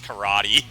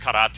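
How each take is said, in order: First: The word is said in an arrogant, showy tone. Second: The word is said in a plain, ordinary tone.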